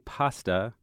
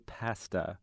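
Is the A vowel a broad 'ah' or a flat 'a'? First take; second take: broad ah; flat a. First: The A is a back 'ah' vowel. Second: The A is a front vowel as in 'wag'. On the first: This is the American way of saying it. "Americans say pasta" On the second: This is the British way of saying it. "Brits say pasta"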